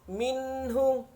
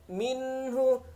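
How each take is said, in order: No difference in how they are said.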